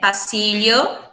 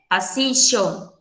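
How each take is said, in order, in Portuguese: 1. O LL soa como um lh palatal. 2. O LL soa como um som de sh. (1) "a gente pode pronunciar ele como o L H" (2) "com som de X"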